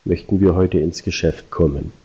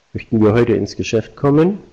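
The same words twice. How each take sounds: First: Tune drops at the end, kommen set down low; falling command. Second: Ends rising on kommen, as a question. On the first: Salesman pushing the customer with a falling command. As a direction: lower kommen to close it like an order. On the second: Salesman to customer, ending on a rise. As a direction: lift kommen up at the end, asking. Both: Shown as a demonstration. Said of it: "Das erste war motivierter".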